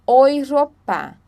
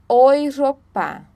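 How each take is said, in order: Both takes have the same delivery.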